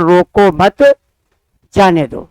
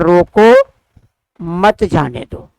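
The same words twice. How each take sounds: First: The pause comes after मत. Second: The pause comes after रोको.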